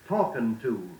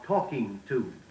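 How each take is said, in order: First: The ending is clipped carelessly. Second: The ending is said carefully in full. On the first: The speaker calls it wrong. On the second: The speaker calls it right.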